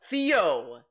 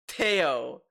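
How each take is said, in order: First: The name starts with a th sound. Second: The name starts with a plain t sound. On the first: The speaker calls it right. "It's Theo" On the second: The speaker calls it wrong. "That's not how you pronounce my name"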